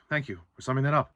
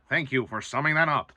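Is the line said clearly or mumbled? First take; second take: mumbled; clearly. First: The line is mumbled with little energy. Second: The line is said clearly and crisply. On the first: This is how the new actor delivers it. The speaker calls it wrong. "He just kind of mumbles his way through lines" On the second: This is how the original actor delivered it. The speaker calls it right. "certain lines that Jay Baruchel says in the original"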